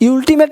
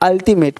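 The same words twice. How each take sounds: First: The word begins with a 'yoo' sound. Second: The word begins with an 'uh' sound. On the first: The speaker calls it wrong. "अल्टीमेट नहीं" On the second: The speaker calls it right. "इस यू का sound क्या है, आ"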